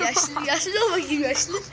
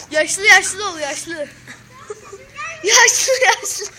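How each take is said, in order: First: Said in the usual way. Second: Put-on louder, higher call to act old; loud urging. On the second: Shown as a demonstration. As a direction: push him to act old, loudly. (yüksek sesle ısrarla) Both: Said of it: "Yaşlı hareketi".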